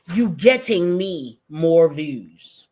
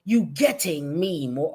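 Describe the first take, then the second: First: Slow, mocking quote of her words; mocking slow reread. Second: Said in the usual way. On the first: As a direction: drag it out to ridicule her grammar. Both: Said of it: "talking like this".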